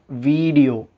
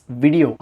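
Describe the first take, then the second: First: வீடியோ as VEEE-di-yo; mispronounced video. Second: வீடியோ as VIH-di-yo; correct video. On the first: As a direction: draw out the VEE in வீடியோ. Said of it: "not வீடியோ". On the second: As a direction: keep the first I of வீடியோ short. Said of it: "it's வீடியோ". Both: Shown as a demonstration.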